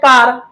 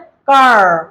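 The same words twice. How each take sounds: First: It is said in an Indian accent. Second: It is said in an American accent.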